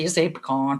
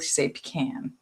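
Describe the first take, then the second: First: It is said the classy, posh way. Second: It is said the Southern US way.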